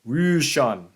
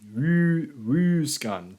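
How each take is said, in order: First: The middle consonant sounds like sh. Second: The middle consonants sound like sk. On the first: This is the later form of the word. "as a later pronunciation" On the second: This is the older form of the word. "arguably an, an early pronunciation"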